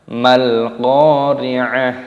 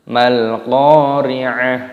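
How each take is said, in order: Both takes have the same delivery.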